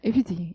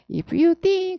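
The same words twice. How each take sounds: First: The word if is short and unstressed. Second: The word if is long and stressed. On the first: The speaker calls it right. "if you 강세가 없는데 강세가 없어서 if잖아. 그러니까 되게 짧다" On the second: The speaker calls it wrong. "그게 아니라"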